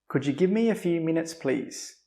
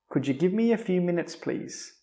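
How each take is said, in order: Both takes have the same delivery.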